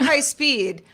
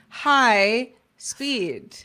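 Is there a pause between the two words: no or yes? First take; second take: no; yes. First: The two words run together without a break. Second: A short break separates the two words. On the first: It describes something as very fast. The speaker calls it wrong. "Not High Speed" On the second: It greets something named Speed. The speaker calls it right. "Hello, Speed"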